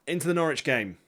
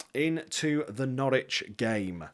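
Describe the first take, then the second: First: Said in the usual way. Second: "Into the Norwich game" drawn out slowly and softer, like a match announcer; slow announcer intro. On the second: Shown as a demonstration. Streamer introduces the big match to viewers, slow announcer read.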